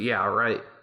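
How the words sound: It is said in a sarcastic, mocking tone.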